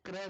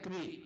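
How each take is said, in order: First: It is said with a short 'a' vowel. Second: It is said with a long 'ee' vowel. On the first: The speaker calls it wrong. "क्र नहीं" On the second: The speaker calls it right. "क्री लगनी चाहिए"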